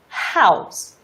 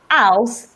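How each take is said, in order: First: The word starts with an airy H sound. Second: The word starts without an H sound. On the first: The speaker calls it right. "instead of house" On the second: The speaker calls it wrong. "the person would say house"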